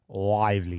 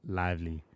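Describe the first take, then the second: First: The word is said with lively, high energy. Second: The word is said flatly, with little energy. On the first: The speaker calls it right. "I have to put a bit of energy in that" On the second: The speaker calls it wrong. "That's dead, man"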